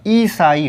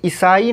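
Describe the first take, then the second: First: ईसाई with a slow, stretched opening ī; long first ī. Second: ईसाई with a quick short opening i; short first i. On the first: Teacher correcting it for students, long-ī ईसाई. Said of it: "ईसाई होता है". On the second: Teacher showing students the misspelling, short-i ईसाई. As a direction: keep the first vowel of ईसाई brief. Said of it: "तो ईसाई नहीं होता". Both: Shown as a demonstration.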